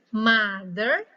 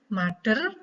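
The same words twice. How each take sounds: First: The middle consonant has no d sound. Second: The middle consonant sounds like d. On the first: The speaker calls it right. "Tidak ada der-nya" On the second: The speaker calls it wrong. "bukan mother"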